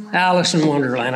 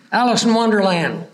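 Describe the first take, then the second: First: Quick, low mutter to himself as the name comes back; tossed off under the breath, remembering; muttered recall. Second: Said in the usual way. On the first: Real, not acted. Preacher recalling a title to himself, quick low mutter. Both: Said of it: "I couldn't think of her name".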